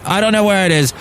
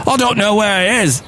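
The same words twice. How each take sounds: First: Put-on a first, lightly tried northern English accent; half-hearted northern English accent, slightly higher; northern accent attempt. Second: Put-on a second try at a northern English accent, higher pitched; pushing harder at a northern English accent that doesn't land; failed northern accent. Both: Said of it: "I can't do a northern accent".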